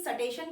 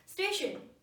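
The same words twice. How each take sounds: First: सटेशन with a full स and an extra vowel before ट; regional mispronunciation. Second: स्टेशन with a short half स straight into ट, no vowel before it; correct pronunciation. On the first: Teacher imitating a regional learner, said wrong. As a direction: split स from ट as in सटेशन. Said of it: "कहीं सटेशन भी बोला जाता है". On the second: Teacher modelling station for students, said crisply. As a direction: start स्टेशन on a quick half स. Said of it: "स थोड़ा सा बोलना है". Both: Shown as a demonstration.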